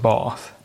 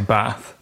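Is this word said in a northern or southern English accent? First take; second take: southern; northern. First: The word is said in a southern English accent. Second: The word is said in a northern English accent. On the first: "my other half says bath" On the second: "I say bath"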